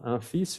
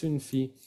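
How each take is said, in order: First: "Un fils" softly, nasal "un" and "feess"; article contrast. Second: "une fille" softly, "ün fee" without an S; article contrast. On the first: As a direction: contrast "Un fils" with rising tune, S sounded. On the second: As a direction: contrast "une fille" with falling tune, long ee. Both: Shown as a demonstration. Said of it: "cuidado con el artículo".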